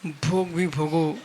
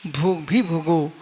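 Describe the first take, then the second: No difference in how they are said.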